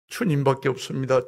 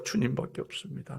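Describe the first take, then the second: First: Said in the usual way. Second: 주님밖에 없습니다 breathed as a soft whisper, no voice; whispered echo. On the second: Acted. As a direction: echo the prayer under your breath. Repeated prayer, second take whispered.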